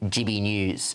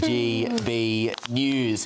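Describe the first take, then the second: First: The letters are pronounced casually and slurred together. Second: The letters are pronounced carefully and distinctly. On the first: The speaker calls it wrong. "It ain't G B News" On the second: The speaker calls it right. "an added attempt at pronunciation"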